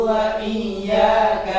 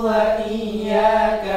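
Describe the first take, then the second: Both takes have the same delivery.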